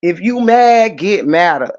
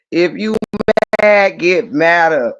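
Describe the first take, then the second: First: Said in the usual way. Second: Slow, each word weighed in "If you mad, get madder"; drawn out, deliberate "get madder"; slow emphatic repeat. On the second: Shown as a demonstration. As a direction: lean on "mad" and drag it out slowly. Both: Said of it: "repeats the line slower".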